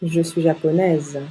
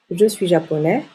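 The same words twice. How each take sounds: First: Japonaise closing on a falling z; sounded final consonant. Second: Japonais ending on a rising è; silent final S. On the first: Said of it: "on prononce la dernière consonne". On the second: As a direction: leave the S off japonais. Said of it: "Le S est une lettre muette". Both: Shown as a demonstration.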